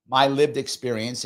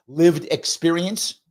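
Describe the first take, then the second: First: Said in the usual way. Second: Lived experience, drawn out slowly with LIVED lifted and rising at the end; slow stressed phrase. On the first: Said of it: "the appropriate term". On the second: Shown as a demonstration. Naming the appropriate term, slow and stressed. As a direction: lean into Lived experience like a quoted buzzword. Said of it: "what's, what's the phrase?".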